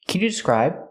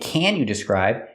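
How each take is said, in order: First: The word 'can' is short and unstressed. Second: The word 'can' is stressed and full.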